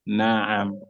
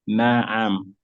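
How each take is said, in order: First: The ayn is followed by a short a. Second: The same.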